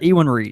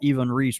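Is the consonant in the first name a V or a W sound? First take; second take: W; V. First: The first name has a W sound. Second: The first name has a V sound. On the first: "I've always called it Ewan Reese" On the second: "kind of like that V, that V sounding W"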